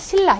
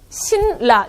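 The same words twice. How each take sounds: First: The sounds are smoothed together for easier speech. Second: Each letter is sounded exactly as written. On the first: The speaker calls it right. "실제 우리의 발음은 이렇게 발음합니다" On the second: The speaker calls it wrong. "신라라고 발음하기는 굉장히 힘들죠"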